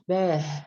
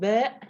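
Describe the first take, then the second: First: It ends with an h sound. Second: It ends with a glottal stop. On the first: "no ha at the end" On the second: "no hamza at the end"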